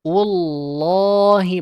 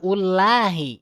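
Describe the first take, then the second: First: Ullahi drawn out very slowly; long Ullahi. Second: Ullahi said quickly; wrong short ullahi. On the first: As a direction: hold the long vowel in Ullahi. (Ullahi dibaca panjang) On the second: (ullahi pendek salah) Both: Shown as a demonstration.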